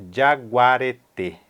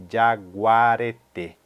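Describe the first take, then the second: No difference in how they are said.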